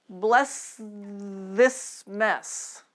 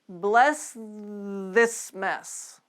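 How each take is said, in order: The two takes are said the same way.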